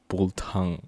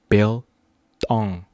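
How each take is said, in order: First: The first syllable sounds like 'bull'. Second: The first syllable sounds like 'bill'. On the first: The speaker calls it wrong. "Not bull tongue" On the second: The speaker calls it right. "You know Bill, like Billy. Tong, like your tongs"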